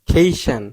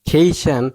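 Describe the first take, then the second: The two takes are said the same way.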